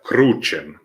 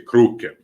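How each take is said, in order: First: The middle consonant is said as ch. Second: The middle consonant is said as k. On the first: "that's how you say it in ecclesiastical" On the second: "It's always a K sound"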